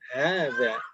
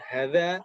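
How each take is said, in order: First: The first vowel is said long. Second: The first vowel is said short. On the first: The speaker calls it right. "harfu tanbih itu ada alifnya. Ha gitu" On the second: The speaker calls it wrong. "Bukan hadza"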